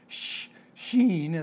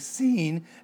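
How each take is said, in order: First: The word begins with an sh sound. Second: The word begins with an s sound. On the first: The speaker calls it right. "rather than saying sheen" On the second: The speaker calls it wrong. "they would pronounce it with just an S"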